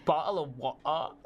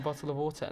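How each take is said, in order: First: Higher-pitched caricature of British speech; mimicked British accent. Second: Said in the usual way. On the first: Mimicking foreigners who request the phrase, exaggerated British accent. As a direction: ham up BOTTLE OF WATER in mock British. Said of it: "don't say it like that". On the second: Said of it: "No, don't say it like that".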